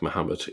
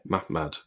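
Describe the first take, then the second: First: It has three syllables, starting with a 'mu' sound. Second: It has two syllables, starting with a 'mah' sound. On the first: The speaker calls it wrong. "it wasn't pronounced like Muhammad" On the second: The speaker calls it right. "It was pronounced more like Mah Mahmad"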